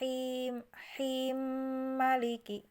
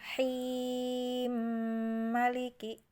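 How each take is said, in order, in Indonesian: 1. Vokal sebelum maliki dibaca pendek. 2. Vokal sebelum maliki dibaca sedang. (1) "yang hi-nya pendek dua harokat" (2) "yang hi-nya dibaca empat"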